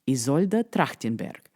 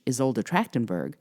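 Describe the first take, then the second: First: It is said with a Russian accent. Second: It is said with an English accent.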